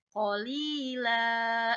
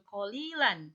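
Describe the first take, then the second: First: The word ends with a lengthened vowel, no n. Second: The word ends with a short vowel and n. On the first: The speaker calls it right. "La-nya dipanjangin ya" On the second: The speaker calls it wrong. "jadi bukan samanan kolilan"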